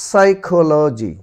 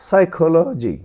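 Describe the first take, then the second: Both takes have the same delivery.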